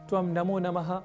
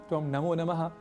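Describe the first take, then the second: Both takes have the same delivery.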